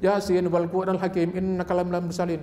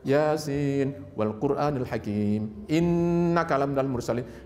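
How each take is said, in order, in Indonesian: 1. Bunyi sengau n dipotong pendek, dibaca cepat. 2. Bunyi sengau n ditahan dengan sengau yang jelas. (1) "tanpa tajwid ... Enggak pakai gunnah umumnya" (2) "padahal kan"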